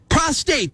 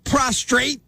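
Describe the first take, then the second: First: No R sound follows the T. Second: An extra R sound follows the T. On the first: The speaker calls it right. "There's no second R in the word" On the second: The speaker calls it wrong. "not prostrate"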